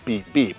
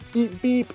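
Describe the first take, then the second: First: The beeps are imitated at a lower pitch. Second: The beeps are imitated at a higher pitch. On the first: It imitates an ordinary car horn. "like a regular car horn" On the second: It imitates the special Roadrunner horn. "register a little bit higher"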